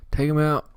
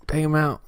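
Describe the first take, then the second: No difference in how they are said.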